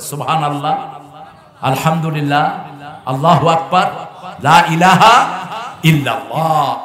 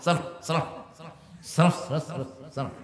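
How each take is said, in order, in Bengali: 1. বাক্যগুলো ধীরে, স্পষ্ট অক্ষরে বলা হয়েছে। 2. বাক্যগুলো তাড়াহুড়ো করে একসাথে জড়িয়ে বলা হয়েছে। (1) "আপনি স্পষ্ট অক্ষরে পড়বেন" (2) "এরম করে, এরম করে"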